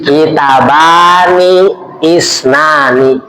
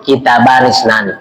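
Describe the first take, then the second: First: Kitabani isnani drawn out very slowly, each syllable stretched; slow drilled Arabic. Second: Said in the usual way. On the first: Shown as a demonstration. Ustaz teaching the dual form to the congregation, slow and stretched. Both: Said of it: "Kalau dua kitab".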